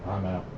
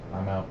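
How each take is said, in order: Both takes have the same delivery.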